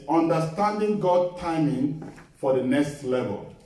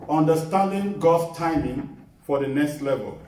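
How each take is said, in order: Both takes have the same delivery.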